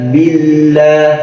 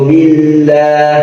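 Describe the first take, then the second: Both takes have the same delivery.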